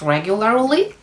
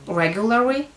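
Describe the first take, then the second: First: The final L sound is pronounced. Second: The final L sound is dropped. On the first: The speaker calls it right. "the correct version is" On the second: The speaker calls it wrong. "I used to drop that L in the end and say"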